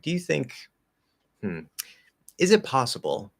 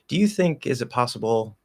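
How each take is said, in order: First: There is a hesitating pause after 'think'. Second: It runs on quickly with no pause after 'think'. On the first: The speaker stops to rethink the question. "often there would be a pause" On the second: The speaker switches questions mid-sentence. "not really have that pause"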